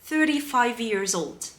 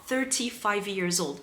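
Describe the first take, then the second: First: The t in thirty is a d-like flap. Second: The t in thirty is a clear t. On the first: "You can say"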